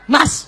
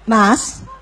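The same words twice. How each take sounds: First: The call sounds irritated and sharp. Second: The call sounds sweet and gentle.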